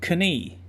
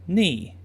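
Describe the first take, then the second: First: It starts with a K sound; shorter vowel. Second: It has no K sound; longer vowel. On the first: "with both the K sound and the long E sound" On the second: "without the K sound"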